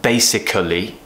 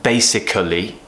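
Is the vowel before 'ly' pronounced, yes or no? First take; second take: yes; yes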